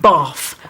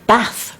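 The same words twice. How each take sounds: First: It is said in an old Cockney accent. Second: It is said in a refined accent.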